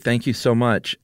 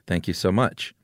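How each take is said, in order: First: It sounds genuinely grateful and warm. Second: It sounds sarcastic and unimpressed.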